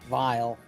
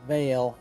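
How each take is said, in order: First: The vowel sounds like 'eye'. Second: The vowel sounds like 'ay'. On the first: The speaker calls it wrong. "instead of Vile" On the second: The speaker calls it right. "I always pronounce it as Vale"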